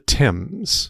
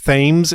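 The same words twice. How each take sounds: First: The word does not rhyme with 'Ames'. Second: The word rhymes with 'Ames'. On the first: The speaker calls it right. "The river is called the Thames" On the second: The speaker calls it wrong. "Thames is right out"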